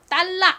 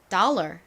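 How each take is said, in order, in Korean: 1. 한국식 발음이에요, 끝에 R 소리가 없어요. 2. 미국식 발음이에요, 끝에 R 소리가 있어요. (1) "한국식으로는" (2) "실제 미국식 발음은"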